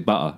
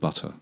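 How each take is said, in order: First: The middle t is replaced by a glottal stop. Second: The middle t is pronounced as a clear t. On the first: "glottal stop when you don't pronounce it" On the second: "rather than butter"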